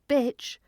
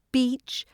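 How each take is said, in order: First: Bitch said with a short, lax i; short vowel. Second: Beach said slowly with a long, held ee; long vowel. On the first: Teacher showing learners vowel length, short i in bitch. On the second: Teacher showing learners vowel length, long ee in beach. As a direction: hold the ee in beach. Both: Shown as a demonstration.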